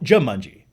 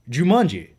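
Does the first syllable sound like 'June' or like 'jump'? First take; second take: jump; June. First: The first syllable sounds like 'jump'. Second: The first syllable sounds like 'June'. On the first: The speaker calls it wrong. "not Jumanji" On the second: The speaker calls it right. "If it's J U, you say June"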